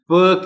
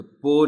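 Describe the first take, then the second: First: پ as a short "puh"; پ with a neutral vowel, no O; correct first sound. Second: پو with a full O vowel, "po"; wrong first syllable. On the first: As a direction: punch out پ high and loud as "puh". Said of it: "پ کی sound ہے". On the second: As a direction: show the mistaken پو with rounded O. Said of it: "پو نہیں بولنا". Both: Shown as a demonstration.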